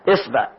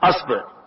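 First: The first vowel is i, as in isba. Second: The first vowel is a, as in asba. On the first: "كسر الهمزة" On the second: "بفتح الهمزة"

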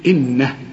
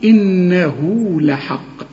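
First: The word stops on the final h without a vowel. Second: The final h is followed by a long u vowel. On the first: "إنما إذا وقفت تقول إيه إنه" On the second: "عند الوصل فقط تقول إنه لحق"

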